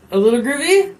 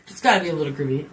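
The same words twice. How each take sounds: First: Groovy lifted into a hopeful question; coaxing rise on groovy. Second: Quick, low insistence on gotta; hurried low answer, gotta leaned on; insisting. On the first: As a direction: ask it, rising up on groovy. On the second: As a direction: rush it, settling the matter. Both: Shown as a demonstration.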